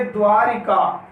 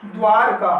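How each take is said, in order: First: द्वारिका slowly in three beats, dvaa-ri-kaa; added i vowel. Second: द्वारका said dvaar-kaa; द्वारका in two beats, no ri; no i vowel. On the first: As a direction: sound a clear i after र in द्वारिका. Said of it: "द्वारिका ये अशुद्ध शब्द है". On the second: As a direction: close र straight onto का in द्वारका. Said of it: "द्वारका शब्द जो है शुद्ध है". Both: Shown as a demonstration.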